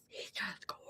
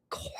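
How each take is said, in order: First: Barely audible, much softer whisper; faint whisper. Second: Hushed, dreamy whisper of admiration. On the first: To the stream, repeating her awe, fading whisper. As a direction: let it fade to almost nothing. Swooning over the stallion. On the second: To the stream, swooning over the stallion, whispered. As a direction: breathe it out like you're in awe. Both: Real, not acted.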